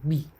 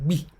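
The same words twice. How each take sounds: Both takes have the same delivery.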